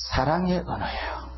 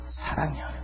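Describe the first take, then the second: First: Said in the usual way. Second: 사랑의 언어 whispered softly. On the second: Shown as a demonstration. Preacher telling the congregation tongues are love, in a whisper. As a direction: breathe 사랑의 언어 as a tender secret.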